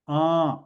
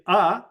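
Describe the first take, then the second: First: The vowel is nasal, air through the nose. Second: The vowel is oral, without nasal sound. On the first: "you can also pronounce a as a" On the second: "it is non-nasalized"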